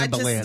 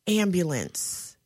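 First: The word is said fast and casually. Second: The word is said slowly and carefully. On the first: This is how the word comes out without thinking. The speaker calls it wrong. "If I say it fast and I don't think it" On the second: The speaker is consciously avoiding a mispronunciation. The speaker calls it right. "You see how slow I have to say it"

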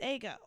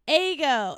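First: The name is said in a softer, middle way. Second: The name is said in a harsh, sharp way. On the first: The speaker calls it right. "It's just Ego. It's just like a happy medium" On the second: The speaker calls it wrong. "the way they say it sounds so harsh and sharp"

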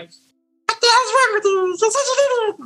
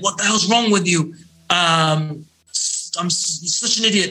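First: It is said in a squeaky Mickey Mouse voice. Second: It is said in a powerful, forceful voice.

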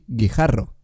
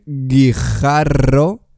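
First: The consonants are light, brief and flow smoothly. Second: The consonants are strongly marked and held longer. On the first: The speaker calls it right. "Todo muy fluido, restándole importancia a las consonantes" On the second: The speaker calls it wrong. "En vez de decir guijarro"

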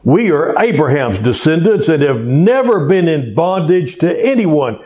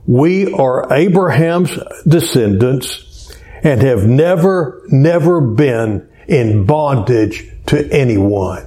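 First: It is read at a normal, faster pace. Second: It is read slowly and deliberately.

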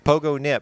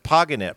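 First: The middle vowel is a full 'o' sound. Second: The middle vowel is a weak, reduced sound. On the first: The speaker calls it wrong. "it's spelled Pogonip, just like it sounds. Pogo Nip" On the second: The speaker calls it right. "but it's pronounced Poganip"

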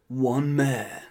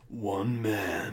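First: It is in a higher-pitched movie-trailer voice. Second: It is in a lower, deeper movie-trailer voice.

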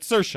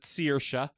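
First: The first vowel is an 'er' sound. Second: The first vowel is not an 'er' sound. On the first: This is how the name's owner says it. "she pronounces it Saoirse" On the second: This is how some other Irish speakers say it. "other Irish people sometimes pronounce it Saoirse"

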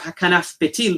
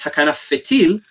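First: The second word begins with a p sound. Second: The second word begins with an f sound. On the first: This is the modern pronunciation. "Nowadays we have Hakanaf Petil" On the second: This is the older pronunciation. "in the original pronunciation, in the time of the Talmud, dagesh was not instituted"

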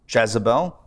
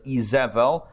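First: The name is said with English sounds. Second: The name is said with Hebrew sounds. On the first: This is the English form of the name. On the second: This is the original Hebrew form of the name.

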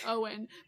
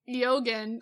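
First: The name is said like Owen, without g. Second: The name is said with a hard g sound. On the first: The speaker calls it right. "it's actually pronounced Owen" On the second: The speaker calls it wrong. "who we pronounce his name"

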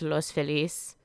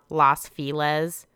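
First: Feliz is pronounced the Spanish way. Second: Feliz is pronounced in an anglicized way. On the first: The speaker calls it right. "It's Los Feliz, the happy" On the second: The speaker calls it wrong. "not Los Feliz"

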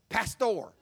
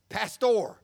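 First: It is said with a Spanish accent. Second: It is said with a Spanish accent.

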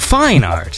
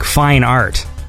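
First: The pitch rises within 'fine'. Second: The pitch stays level on 'fine'. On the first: "you're like fine art, you know, like it, the emphasis is on the second half of the word fine" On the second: "if I say that word, I say like fine art"

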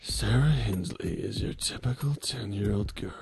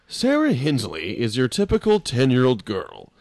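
First: The voice is slower, husky and whiskey-rough. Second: The voice is ordinary at a normal pace.

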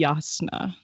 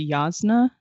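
First: The middle consonant is an S sound. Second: The middle consonant is a Z sound. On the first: The speaker calls it right. "supposed to be S sound" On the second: The speaker calls it wrong. "I say Jasna"

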